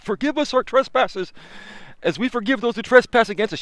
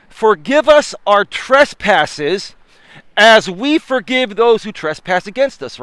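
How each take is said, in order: First: Softer, higher replay of preaching; preacher voice. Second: Slow solemn preacher cadence; preaching. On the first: Retold or imitated. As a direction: echo the preacher, hushed and high. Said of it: "I was preaching like a preacher". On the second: Acted. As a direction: stretch it out like a sermon. Repeats prayer line preaching.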